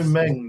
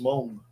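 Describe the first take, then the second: First: The vowel sounds like the 'e' in 'pen'. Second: The vowel sounds like the 'o' in 'long'. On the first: This is the usual way it is said locally. The speaker calls it wrong. "you know, Meng, the Chinese company" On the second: This is the original way it is said. The speaker calls it right. "That's properly pronounced Mong"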